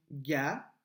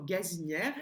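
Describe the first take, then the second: First: "Gazinière" split up, with "zi" held very long; ga, pause, a long drawn "zi", then nière in "Gazinière"; stretched second syllable. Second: Said in the usual way. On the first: Shown as a demonstration. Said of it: "Sur la deuxième". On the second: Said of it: "Et sur quelle syllabe".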